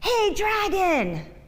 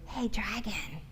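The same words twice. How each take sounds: First: It is shouted very loudly. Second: It is whispered very softly.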